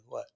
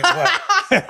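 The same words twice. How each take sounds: First: Said in the usual way. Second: "What?" squeaked high through laughter; mock the guy's challenge while cracking up; laughing mock "What?". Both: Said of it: "He goes".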